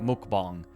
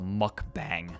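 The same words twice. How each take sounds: First: The word is said the Korean way. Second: The word is said the American way. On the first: This is the original name. "so they call it mukbang" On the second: This is the name after it spread abroad. "that's the point where it becomes a mukbang"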